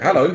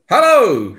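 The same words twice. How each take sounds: First: It is said quietly. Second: It is said loudly.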